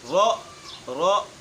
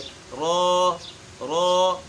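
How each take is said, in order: First: The sound is cut off with a sharp jerk. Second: The sound is short, even and smooth. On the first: The speaker calls it wrong. "झटका देकर पढ़ते हैं, ये भी बिल्कुल गलत है" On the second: The speaker calls it right. "इसके पढ़ने का जो असल तरीका है"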